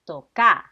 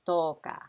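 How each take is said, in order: First: The stress is on the second syllable. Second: The stress is on the first syllable. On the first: The speaker calls it right. "you have to emphasize the ka. So it's toca" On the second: The speaker calls it wrong. "not toca"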